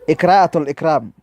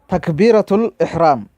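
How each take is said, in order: First: The first word begins with an 'ik' sound. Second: The first word begins with a 'tak' sound. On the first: The speaker calls it wrong. "he cannot even say it properly. He's saying" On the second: The speaker calls it right. "It's called"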